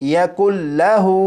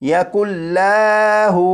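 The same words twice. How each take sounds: First: The l sound is kept short. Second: The l sound is drawn out long. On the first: The speaker calls it right. "बल्कि यकुल्लाहु" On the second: The speaker calls it wrong. "इस लाम को खींच कर नहीं पढ़ेंगे"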